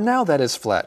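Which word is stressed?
now. The word now carries the stress. The speaker calls it wrong. "we don't say, ... The emphasis is not on the word now"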